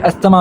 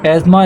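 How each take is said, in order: First: The middle is said with an s-th sound. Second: The middle is said with a z sound. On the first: The speaker calls it wrong. "पढ़ने में आप इसे अस्थमा भी पढ़ सकते हैं" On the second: The speaker calls it right. "जो correct pronunciation है वो एज़मा ऐसे प्रोनाउंस किया जाता है"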